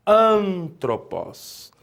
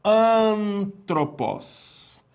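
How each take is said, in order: First: Antropos repeated slowly, each syllable clear; Antropos, slow clear repetition; repeated model word. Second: Antropos said very slowly, drawn out syllable by syllable; antropos, slow teacher model with falling end; careful Greek pronunciation. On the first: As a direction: say Antropos again for students to copy. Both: Shown as a demonstration. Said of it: "nós temos aqui a palavra".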